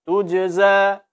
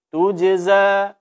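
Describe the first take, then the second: No difference in how they are said.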